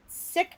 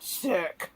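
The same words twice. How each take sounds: First: Said in the usual way. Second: "sick" drawn out with heavy emphasis; stress on sick. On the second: Shown as a demonstration. Wife describes husband's never-minor illnesses, "sick" heavily stressed. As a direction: lean hard and long on "sick" to mean seriously ill. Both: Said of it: "It was never minor".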